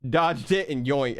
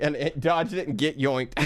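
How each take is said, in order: First: Said in the usual way. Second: Real laugh breaking through the words; chuckling as the joke sinks in. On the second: Real, not acted. Streamer repeating the joke to chat, laughing.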